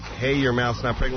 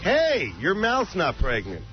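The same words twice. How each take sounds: First: The pitch rises at the end, like a question. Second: The pitch falls at the end, like a statement. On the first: It is asked as a question. The speaker calls it wrong. "like a question" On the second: It is stated as a plain remark. The speaker calls it right. "No, it's like"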